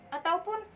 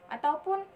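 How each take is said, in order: The two takes are said the same way.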